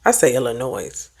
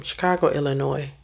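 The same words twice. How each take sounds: First: "Illinois" said her own way, the way she always says it. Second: "Illinois" with a silent s, ending on "noy"; Illinois said her way. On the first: Vlogger says how she pronounces her state. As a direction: give "Illinois" your everyday version. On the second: Unsure of her state's name, says Illinois the local way. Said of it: "how do we supposed to say my state name". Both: Shown as a demonstration.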